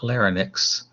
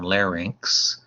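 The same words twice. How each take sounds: First: The word is said as lar-nix. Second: The word is said as lar-inks. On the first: The speaker calls it wrong. "not, not" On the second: The speaker calls it right. "That's how you pronounce that one"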